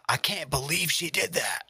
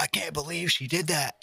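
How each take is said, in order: First: Hushed, gossipy clickbait gasp; shocked whisper. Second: High, hushed mock-shocked voice; clickbait voice. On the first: Pretend. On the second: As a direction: gasp it like a scandal teaser. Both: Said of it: "be like".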